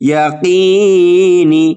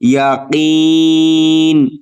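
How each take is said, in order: First: The word ends with a short i vowel. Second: The word ends on a consonant, no vowel. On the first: The reading continues without stopping. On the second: The reader stops at this word.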